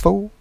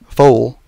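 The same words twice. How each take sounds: First: The final L sound is dropped. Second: The final L sound is clearly pronounced. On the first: "He would say, "What's up, fool?" F O O" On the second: "he would never say fool, F O O L"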